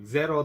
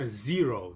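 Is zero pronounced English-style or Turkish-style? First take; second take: Turkish-style; English-style. First: It is pronounced the Turkish way. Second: It is pronounced the English way. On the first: The speaker calls it wrong. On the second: The speaker calls it right.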